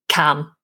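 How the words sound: The vowel is said short. "you would treat it in a shorter way"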